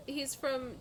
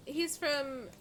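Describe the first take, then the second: No difference in how they are said.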